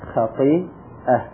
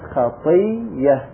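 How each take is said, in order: First: A glottal stop follows the long i sound. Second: A doubled y sound replaces the glottal stop. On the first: "فالهمزة متحركة وما قبلها ساكن" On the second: "قلبناها إلى ياء لأن قبلها ياء"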